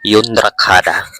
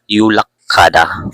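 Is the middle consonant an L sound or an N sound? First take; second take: N sound; L sound. First: The middle consonants sound like n then r. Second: The middle consonants sound like a double l. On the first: The speaker calls it wrong. "ang pagbasa sana dito ay Yundrakhada" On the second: The speaker calls it right. "Ang pagbasa na dito ay Yulakkada"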